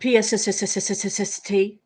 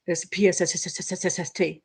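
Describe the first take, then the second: First: P-S-S-S-S-S-S-T, the S letters hissed long; drawn-out s like a snake. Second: P S S S S S S T spelled with long hissed S run; drawn-out s like a snake. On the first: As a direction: stretch the S letters of P S S S S S S T. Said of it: "not P H?". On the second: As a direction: drag out each S in P S S S S S S T. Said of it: "That's the way I think it". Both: Shown as a demonstration.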